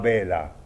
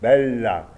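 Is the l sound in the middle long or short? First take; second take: short; long. First: The l sound in the middle is short. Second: The l sound in the middle is held long. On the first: The speaker calls it wrong. "pas bella" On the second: The speaker calls it right. "bella, toujours"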